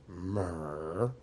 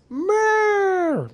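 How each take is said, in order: First: The word is said in a weary, tired way. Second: The word is said in a bright, happy way. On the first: They are too tired to decide. "There's the tired myrrh" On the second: Someone has just arrived. "there's the happy myrrh when someone arrives"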